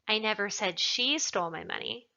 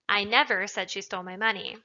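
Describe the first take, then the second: First: The word she carries the stress. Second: The word never carries the stress. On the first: Someone else stole it. "Perhaps somebody else stole it" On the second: It is a flat denial. "is just an emphatic denial of the fact"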